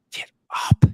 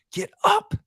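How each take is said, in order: First: Breathy whispered plea to get up; urgent whisper. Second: High, straining yell of a coach; coaches screaming. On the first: Coach urging the fallen player, whispered. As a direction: drop to a whisper, pleading. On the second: Coach yelling at a fallen player to get up, high shout. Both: Retold or imitated. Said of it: "The coaches were screaming out of their heads".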